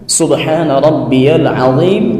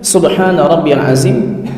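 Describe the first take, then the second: First: Azim begins with a thick emphatic sound. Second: Azim begins with a plain z sound. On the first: The speaker calls it right. "dia dha bukan zal bukan zai" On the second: The speaker calls it wrong. "masih terucap subhana rabbiyal azim dengan zai"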